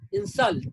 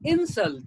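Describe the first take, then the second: First: The stress is on the second syllable. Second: The stress is on the first syllable. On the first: It is used as a verb. "But as a verb" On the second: It is used as a noun. "insult as a noun"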